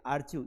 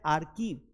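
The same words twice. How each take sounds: First: "आर्चीव" with a ch as in chew; wrong pronunciation. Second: "आर्कीव" with a hard k, ar-keev; hard k in the middle of "आर्कीव"; taught as correct. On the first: Teacher showing students the misreading of archive, wrong pronunciation. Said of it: "ये आर्चीव नहीं है". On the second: Teacher answering which archive is correct, taught pronunciation. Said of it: "correct वाला कौन सा है". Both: Shown as a demonstration.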